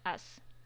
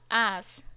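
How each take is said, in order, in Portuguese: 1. A vogal soa como um só som de a, simples. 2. A vogal soa como dois sons de a juntos. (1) "não é as" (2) "É como se eu percebesse que é uma junção de dois A"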